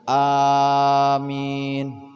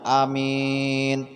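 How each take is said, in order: First: Both vowels are long. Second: The first vowel is short, the second long. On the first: It asks that the prayer be answered. "awalnya panjang, ... panjang akhirnya" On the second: It means trustworthy. "Pendek awalnya, akhirnya panjang"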